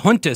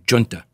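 First: The word begins with an h sound. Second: The word begins with a j sound. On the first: "junta sounds more like in keeping with the Spanish lingo" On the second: "I do like the j sound"

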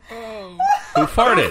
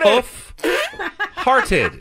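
First: The phrase is said quickly without a break. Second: The phrase is said slowly with a break. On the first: It sounds like asking who passed gas. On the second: It is the name of the horse.

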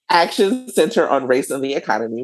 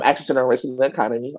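First: It is said at a slower pace. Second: It is said at a quick pace.

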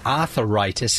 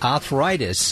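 First: The word is said in a folksy variant form. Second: The word is said in its standard form.

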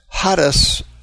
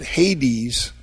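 First: The word is said with a Greek pronunciation. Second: The word is said with an English pronunciation. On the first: "That's the Greek word Hades" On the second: "in English they pronounce it"

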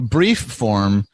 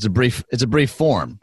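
First: The stress falls on the word brief. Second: The stress falls on the word form. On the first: It sounds like a form for underwear. The speaker calls it wrong. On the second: It means a short form. The speaker calls it right.

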